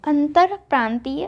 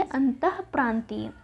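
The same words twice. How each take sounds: First: अंतरप्रांतीय with a full र after अंत; wrong form. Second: अंतःप्रांतीय said slowly and softer, with the breathy ः; अंतःप्रांतीय with a visarga breath after अंत; correct form. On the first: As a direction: read out अंतरप्रांतीय as the mistake. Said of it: "अंतरप्रांतीय में हम क्या लिखेंगे". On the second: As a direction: give the right form अंतःप्रांतीय gently. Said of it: "हम क्या लिखेंगे". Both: Shown as a demonstration.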